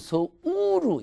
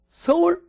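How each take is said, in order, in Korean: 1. 일본식이에요, 끝에 ru 음절이 덧붙어요. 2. 한국식이에요, 끝에 l 소리가 나요.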